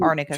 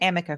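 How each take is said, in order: First: The middle sounds like 'rn'. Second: The middle sounds like an 'm'. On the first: The speaker calls it right. "also known as" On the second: The speaker calls it wrong. "mispronouncing literally everyone's name to include"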